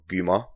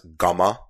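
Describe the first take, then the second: First: The first vowel sounds like 'oo' in 'goo'. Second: The first vowel sounds like 'a' in 'gamma'. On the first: The speaker calls it right. "Not Guma" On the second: The speaker calls it wrong. "it was easily pronounced as Gamma"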